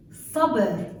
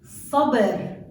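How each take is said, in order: First: Sabr repeated with a hard emphatic ṣ; Arabic pronunciation. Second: Sabr with a hard emphatic ṣ; Arabic pronunciation. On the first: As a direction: Sabr said again, heavy ṣ. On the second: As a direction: sabr said clearly, heavy ṣ. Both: Shown as a demonstration. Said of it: "Another example is".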